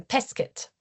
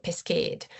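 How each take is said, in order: First: Pesket with a short second vowel. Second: Pesqued with a long second vowel. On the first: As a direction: keep the e before the final t in pesket brief. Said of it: "because it's short in". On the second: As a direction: stretch the last vowel of pesqued. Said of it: "it's not pesqued". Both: Shown as a demonstration.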